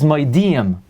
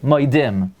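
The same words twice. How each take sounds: First: The vowel before the final m is a full 'ee'. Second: The vowel before the final m is reduced. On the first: The speaker calls it right. "The word is moidim" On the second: The speaker calls it wrong. "people say moidim. There is no word in the Hebrew language moidim"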